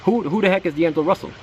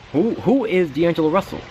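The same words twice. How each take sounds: First: High, incredulous repeat of the question; baffled disbelief. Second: High, incredulous who-is-this question; mock bafflement, voice jumping up; baffled disbelief. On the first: Retold or imitated. Fan recalling draft-day shock at the pick, baffled high. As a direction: act out the stunned fan, pitch way up. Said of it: "That was my thought". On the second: Recalling draft day, asking who this pick is, baffled high. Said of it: "And I was like".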